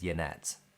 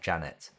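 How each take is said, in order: First: The name begins with a Y sound. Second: The name begins with a J sound. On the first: This is said to tease the owner of the name. "bully her and say it is Yanet" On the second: This is how the owner of the name says it. "it is pronounced apparently like Janet"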